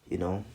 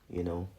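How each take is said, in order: Both takes have the same delivery.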